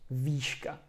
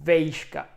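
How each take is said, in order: First: The first vowel is a long plain "ee". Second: The first vowel is the diphthong "ej". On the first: This is a regional form. "In other region of Czech Republic, you could also, for example, hear výška instead of vejška. Oh, it's disgusting" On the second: This is the common colloquial form. "Everyone would say vejška"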